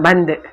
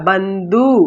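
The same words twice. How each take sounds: First: The final vowel is cut short, half length. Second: The final vowel is pronounced full length. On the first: The speaker calls it right. "இப்படிதான் சொல்லுவோம்" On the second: The speaker calls it wrong. "நாம பந்து அப்படின்னு சொல்ல மாட்டோம்"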